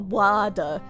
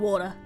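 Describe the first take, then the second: First: The first vowel is an open 'ah' sound. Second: The first vowel is a rounded 'aw' sound. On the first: The speaker calls it wrong. "it's less of a wada" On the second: The speaker calls it right. "it's more like an O sound"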